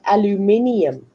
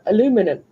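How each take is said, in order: First: It is said the South African way, five syllables. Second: It is said the American way, four syllables.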